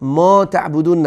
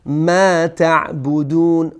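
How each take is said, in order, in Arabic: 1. الحركة بعد الميم ممدودة. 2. الحركة بعد الميم قصيرة. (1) "ما تعبدون نشه" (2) "الفی که اینجا تلفظ میشه باید کوتاه خوانده بشه"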